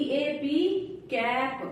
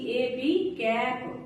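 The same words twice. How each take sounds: The two takes are said the same way.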